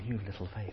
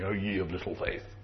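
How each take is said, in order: First: It is said in a playful, smiling tone. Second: It is said in a stern, reproachful tone.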